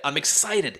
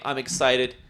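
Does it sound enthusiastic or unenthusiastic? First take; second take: enthusiastic; unenthusiastic. First: It sounds genuinely enthusiastic and energetic. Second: It sounds lame and half-hearted.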